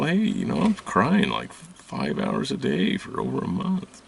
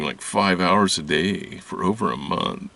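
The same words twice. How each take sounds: First: High, whiny retelling of own complaint; mock whiny quote. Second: Said in the usual way. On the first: Telling the healer she cries all day, high and whiny. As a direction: pitch the complaint way up, plaintive. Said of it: "and I go". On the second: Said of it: "I was crying".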